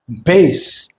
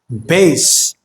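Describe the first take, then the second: No difference in how they are said.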